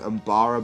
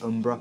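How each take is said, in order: First: The name is said with three syllables. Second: The name is said with two syllables. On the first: The speaker calls it wrong. "I always thought their name was Umbara" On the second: The speaker calls it right. "it turns out it's Umbra"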